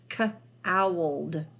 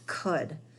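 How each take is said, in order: First: The vowel is said as an 'ow' sound. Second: The vowel is said as an 'oo' sound. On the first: The speaker calls it wrong. "Usually this O U makes the ow sound, but if we read it like that, it wouldn't really make sense" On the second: The speaker calls it right. "So this word is could"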